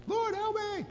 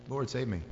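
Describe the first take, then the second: First: High, desperate acted scream for help; full-on scream. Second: Said in the usual way. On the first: Peter to Jesus as he begins to sink, screaming. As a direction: scream it as if going under. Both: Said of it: "this is a full-on scream".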